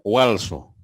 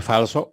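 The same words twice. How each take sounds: First: Walso with w instead of f; walso, imitating the w sound; mispronounced word. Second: Falso with a plain f; falso, standard f sound; correct word. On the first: (walso con w en vez de f) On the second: (falso pronunciado con f) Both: Shown as a demonstration. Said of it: "En vez de decir falso".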